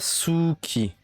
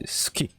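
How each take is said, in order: First: The u vowel after the s is voiced. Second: The u vowel after the s is silent. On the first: The speaker calls it wrong. "C'est pas Suki" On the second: The speaker calls it right. "c'est ski"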